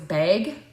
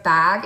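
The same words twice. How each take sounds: First: It is said in a Canadian accent. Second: It is said in a standard American accent.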